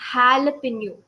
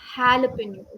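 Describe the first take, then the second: First: The word begins with an H sound. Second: The word begins with an H sound.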